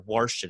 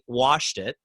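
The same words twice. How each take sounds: First: The word is said in a Baltimore accent. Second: The word is said in a standard accent.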